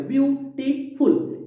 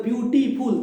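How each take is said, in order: First: beautiful slowly split into three beats, ब्यू-टी-फुल; syllable by syllable. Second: Said in the usual way. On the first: Shown as a demonstration. Teacher counting three parts of a word for students, syllable by syllable. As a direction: break beautiful into slow, separate syllables, pitched higher. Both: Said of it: "तीन बार हो गया".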